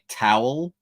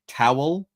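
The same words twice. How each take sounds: Both takes have the same delivery.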